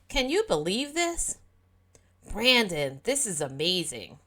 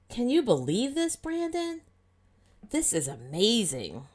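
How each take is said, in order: First: Brandon is grouped with the sentence after it. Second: Brandon is grouped with the question before it.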